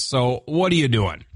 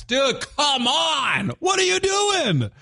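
First: Said in the usual way. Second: High, slow, exasperated yell; exasperated outburst. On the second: Real, not acted. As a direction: scold them in disbelief. Scolding trespassing photographers.

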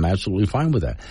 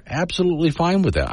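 First: Level, earnest agreement; sincere. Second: High, mock-cheerful agreement; sarcastic. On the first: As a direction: say it and mean it plainly. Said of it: "I'm not saying that sarcastically". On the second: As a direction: toss it off with a sarcastic lift. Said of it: "I'm not saying that sarcastically. I am". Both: Shown as a demonstration.

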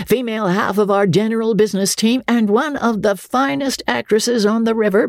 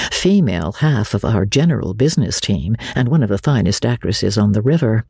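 First: High, hearty boast; captain's boast. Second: Said in the usual way. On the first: A narrator's reading. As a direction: sell her like a showman. Andy's introduction line.

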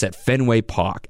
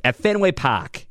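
First: Said in the usual way. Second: Boston accent, r dropped so Park sounds like pahk. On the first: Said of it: "You gotta say it like that". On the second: Shown as a demonstration. Radio host mocks Boston pronunciation for listeners, Boston accent. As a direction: drawl At Fenway Park slowly in a Boston accent. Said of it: "with the real Beaner Boston accent".

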